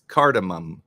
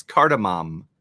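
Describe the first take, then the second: First: "cardamom" ending in "mum"; reduced ending. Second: "cardamom" with an open final "ah"; full "mom" ending. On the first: Asking Alexa to say it, "cardamom" ending like "mum". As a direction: say "cardamom" with a weak, short final vowel. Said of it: "what's the correct pronunciation?". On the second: Testing Alexa with the other version, "cardamom" ending like "mom". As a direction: say "cardamom" so the last syllable rhymes with Tom. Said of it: "tried to get her to say cardamom". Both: Shown as a demonstration.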